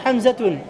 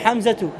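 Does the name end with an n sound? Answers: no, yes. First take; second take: yes; no. First: The name ends with an added n sound. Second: The name ends on a vowel without n. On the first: The speaker calls it wrong. "tu ne dis pas Hamzatoun" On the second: The speaker calls it right. "Tu dis Hamzatou"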